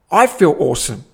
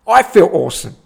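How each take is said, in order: First: Said in the usual way. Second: Louder, higher awesome; excited. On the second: Real, not acted. Telling the viewers how good it felt, louder. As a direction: beam it out, louder. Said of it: "repeated louder".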